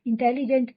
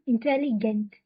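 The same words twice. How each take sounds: First: Teacher demos the wrong "इंटेलिजेंट"; wrong English-style pronunciation. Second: "इंटेलिजेंट" with a hard German g, "intelligent"; teacher gives the correct German "इंटेलिजेंट"; German pronunciation. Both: Shown as a demonstration. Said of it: "इंटेलिजेंट नहीं".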